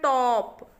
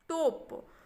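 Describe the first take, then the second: First: The vowel is an open, short 'aw' sound. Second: The vowel is a closed, long 'oh' sound. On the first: The speaker calls it right. "तो इसको हम पढ़ेंगे टॉप" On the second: The speaker calls it wrong. "तो हम उसको टोप नहीं पढ़ेंगे"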